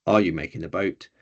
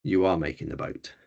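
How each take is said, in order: First: Are you making the boat with a rise at the end; rising question on boat; question tune. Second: You are making the boat falling and softer at the end; falling statement on boat; statement tune. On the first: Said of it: "that changes it to". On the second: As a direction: let boat drop like a statement. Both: Shown as a demonstration.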